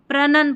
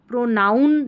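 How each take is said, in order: First: The start sounds like pronun, without an 'ow' sound. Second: The start sounds like the word pronoun. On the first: The speaker calls it right. "प्रनन पढ़ दे" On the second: The speaker calls it wrong. "प्रोनाउन नहीं पढ़ना है"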